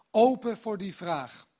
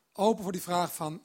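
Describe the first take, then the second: First: Slow, with open pushed louder; stress on open. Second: Said in the usual way. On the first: Shown as a demonstration. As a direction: lean hard on "open", slowly. (nadruk op "open", langzaam)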